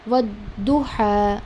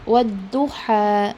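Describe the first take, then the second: The two takes are said the same way.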